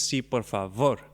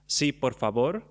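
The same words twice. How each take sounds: First: The v in favor is a fricative. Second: The v in favor is not a fricative. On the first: This is how it sounds in Judeo-Spanish. "in Judo Spanish ... It's a fricative V" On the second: This is how it sounds in current Spanish. "in current Spanish, we will say"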